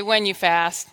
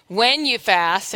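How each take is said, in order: First: Said in the usual way. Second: Slow, drawn-out call for the congregation to repeat; preacher's slow call. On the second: Shown as a demonstration. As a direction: stretch it out as a call-and-response line. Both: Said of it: "everybody say".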